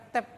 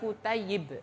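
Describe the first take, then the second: First: The middle is a short 'ai' glide. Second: The middle has a doubled 'yy' plus 'i'. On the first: This is the common everyday pronunciation. The speaker calls it wrong. "Biasanya orang nyebutnya apa Pak? Kutaib" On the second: This is the original form of the word. The speaker calls it right. "Itu aslinya kutayyib"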